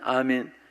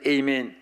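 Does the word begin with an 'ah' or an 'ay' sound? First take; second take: ah; ay. First: The word begins with an 'ah' sound. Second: The word begins with an 'ay' sound. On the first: This is how Koreans say it. "한국 사람은 아멘" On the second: This is how Americans say it. "미국 사람은 에이멘"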